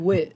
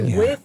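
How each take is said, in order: First: The word ends with a 't' sound. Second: The word ends with a 'th' sound.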